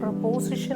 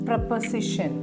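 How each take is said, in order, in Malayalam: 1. രണ്ടാമത്തെ സ്വരം പൂർണ്ണമായ 'o' ശബ്ദമാണ്. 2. രണ്ടാമത്തെ സ്വരം ചെറുതായ, കുറഞ്ഞ ശബ്ദമാണ്.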